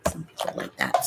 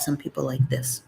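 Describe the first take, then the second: First: Unvoiced ASMR whisper. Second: Soft voiced low murmur. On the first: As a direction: breathe it out as a whisper. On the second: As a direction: voice it low and gently. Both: Shown as a demonstration.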